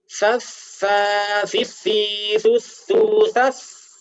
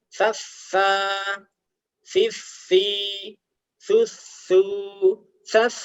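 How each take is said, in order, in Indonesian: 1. Suku katanya disambung tanpa jeda di antaranya. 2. Suku katanya diucapkan terpisah dengan jeda.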